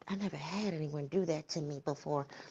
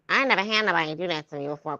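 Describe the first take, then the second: First: It is said in the speaker's own voice. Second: It is said imitating the woman's voice.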